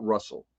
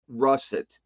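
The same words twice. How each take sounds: First: "Russell" with an l ending replacing the t of russet; mistaken pronunciation. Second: "russet" ending in a clear t; intended pronunciation. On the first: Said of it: "but it came out Russell". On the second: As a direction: say "russet" with a final t sound. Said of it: "I meant russet". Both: Shown as a demonstration.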